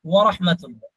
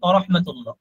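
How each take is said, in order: First: The first word starts with a rounded 'w' sound. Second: The first word is a bare unrounded 'a'. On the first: The speaker calls it right. "ওয়া।" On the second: The speaker calls it wrong. "দেখবেন অনেক ইমাম সাহেব এরকম বলে"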